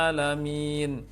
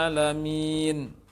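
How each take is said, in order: Both takes have the same delivery.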